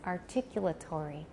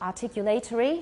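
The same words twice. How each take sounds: First: It is said with an American pronunciation. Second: It is said with a British pronunciation. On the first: "In American" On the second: "that sounds more British"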